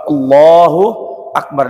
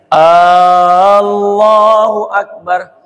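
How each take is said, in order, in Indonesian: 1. Vokal pertama pada Allahu pendek. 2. Vokal pertama pada Allahu dibaca panjang.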